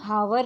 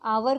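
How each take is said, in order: First: The word starts with an audible h sound. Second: The word starts directly with a vowel sound. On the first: The speaker calls it wrong. "हम हावर नहीं पढ़ते हैं" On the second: The speaker calls it right. "ह silent है"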